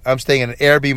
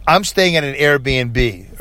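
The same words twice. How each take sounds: First: Said in the usual way. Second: "I'm staying at an Airbnb" drawn out slowly with weight on Airbnb; slow emphatic Airbnb. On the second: Shown as a demonstration. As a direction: stretch "Airbnb" slowly to make the point. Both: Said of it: "all right?".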